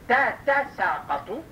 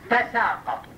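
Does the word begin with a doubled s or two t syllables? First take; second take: two t's; doubled s. First: Two separate t syllables come before the s. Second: The t merges into a doubled s sound. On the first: This is the original full form of the word. "وأصلها تتساقط" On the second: This is the contracted form of the word. "فأدغمت التاء بالسين"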